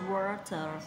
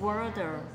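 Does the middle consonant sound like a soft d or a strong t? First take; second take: strong t; soft d. First: The middle t is a strong puff of breath. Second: The middle t sounds like a soft d. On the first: "mình bật chữ bật hơi này" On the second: "giọng Anh Mỹ ... chữ tờ đấy nó sẽ được đọc thành chữ đờ"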